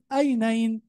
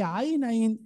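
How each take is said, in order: First: The word begins with a plain glottal stop. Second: The word begins with a throaty pharyngeal ain. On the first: The speaker calls it wrong. "أبدل العين بهمزة، أقول أينين" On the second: The speaker calls it right. "هي عينين"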